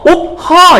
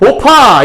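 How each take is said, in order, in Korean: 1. b와 h는 따로따로 발음돼요. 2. b와 h가 합쳐져서 하나의 거센 p가 돼요. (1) "옵하 이렇게 발음하겠어요? ... 발음하기 너무 힘들지 않아요?" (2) "그냥 오파 이렇게 발음하는 게 훨씬 더 쉬운 발음이죠"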